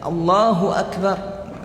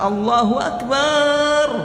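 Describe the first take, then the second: First: The vowel in Akbar is kept short. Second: The vowel in Akbar is drawn out long. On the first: The speaker calls it right. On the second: The speaker calls it wrong. "dia kasih panjang"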